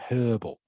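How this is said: The word starts with an h sound. "the rest of the English speaking world uses the H"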